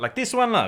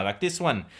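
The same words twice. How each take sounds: First: Like this one lah with Singlish lah, higher pitch; Malaysian accent. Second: Said in the usual way. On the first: Acted. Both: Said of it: "do the intro in that accent".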